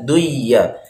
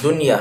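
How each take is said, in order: First: The n sound merges into a doubled y. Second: The n sound is clearly pronounced before y. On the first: The speaker calls it wrong. "nggak boleh dibaca duyya" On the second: The speaker calls it right. "Contohnya lafadz dunya"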